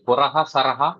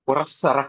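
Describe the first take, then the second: First: The parts are separate with a breathy h between. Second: The parts are joined with a double s between.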